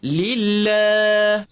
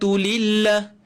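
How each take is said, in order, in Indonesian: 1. Vokal akhirnya dibaca panjang. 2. Vokal akhirnya dibaca pendek. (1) "kita kena panjangkan dia dua harakat. ... Betulkan pada lillah" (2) "salah kalau kita baca"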